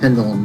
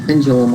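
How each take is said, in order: First: The middle consonant is a plain D. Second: The middle consonant sounds like a J. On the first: "because there's no J in there" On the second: "I heard people saying pendulum all the time"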